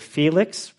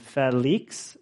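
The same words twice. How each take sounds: First: The name is said with English pronunciation. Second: The name is said with native, non-English pronunciation. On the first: This is how English speakers would say it. The speaker calls it wrong. "in English, you would say Felix" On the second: This is how the man himself says it. The speaker calls it right. "Felix is how he says it"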